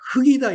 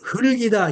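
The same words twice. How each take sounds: First: One consonant of the final cluster is dropped. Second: Both consonants of the final cluster are pronounced. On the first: The speaker calls it wrong. "흙이다 이렇게 읽게 되잖아요" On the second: The speaker calls it right. "흙이다 이렇게 읽어야 되는데"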